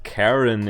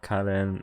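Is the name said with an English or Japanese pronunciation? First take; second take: English; Japanese. First: The name is said with an English pronunciation. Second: The name is said with a Japanese pronunciation. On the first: The speaker calls it right. "it's pronounced Karen in English" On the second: The speaker calls it wrong. "not Karen"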